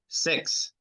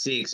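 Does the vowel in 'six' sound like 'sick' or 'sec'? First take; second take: sec; sick. First: The vowel sounds like the one in 'sec'. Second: The vowel sounds like the one in 'sick'. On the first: This is how the other country says it. "but they say sex. It sounds like sex" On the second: This is how the speaker's own country says it. "we say the number six is six"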